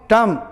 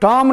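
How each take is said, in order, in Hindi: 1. स्वर 'uh' जैसा सुनाई देता है। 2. स्वर 'aw' जैसा सुनाई देता है।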